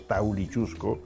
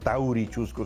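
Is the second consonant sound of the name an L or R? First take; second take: L; R. First: The second consonant is an L sound. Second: The second consonant is an R sound. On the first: This is the original form shaped by Aymara. The speaker calls it right. "sino Taulichusco, ... todo era con L" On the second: This is the later, non-original form of the name. The speaker calls it wrong. "no era Taurichusco"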